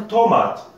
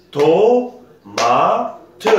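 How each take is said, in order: First: Said in the usual way. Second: TO, MA, TE drawn out in three high, loud beats; syllable by syllable. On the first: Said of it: "Par exemple". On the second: Shown as a demonstration. Teacher showing three syllables, "To-ma-te" split syllable by syllable. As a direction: pause between "To", "ma" and a sounded "te". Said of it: "nous avons trois syllabes".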